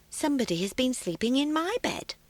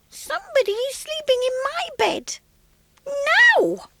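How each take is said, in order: First: It is said in a quiet, gentle voice. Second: It is said in a small, squeaky voice.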